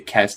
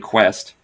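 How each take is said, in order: First: It begins with a plain k sound. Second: It begins with a kw sound. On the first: The speaker calls it wrong. "you don't say quest" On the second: The speaker calls it right. "you say quest"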